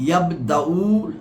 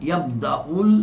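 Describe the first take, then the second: The two takes are said the same way.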